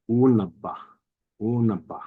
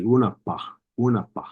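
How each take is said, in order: First: Unaba with a voiced b; Southern dialect unaba with a b. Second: Unapa with a clear p; p dialect. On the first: Teacher contrasts the Southern b with the p. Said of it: "our Southern dialect". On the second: Teacher imitates the Pyramid Lake p pronunciation. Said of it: "pronounced with a P". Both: Shown as a demonstration.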